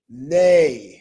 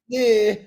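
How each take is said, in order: First: The syllable has an ay vowel with no r. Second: The syllable has an ear vowel ending in r. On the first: The speaker calls it right. "make sure you say nay" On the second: The speaker calls it wrong. "not near"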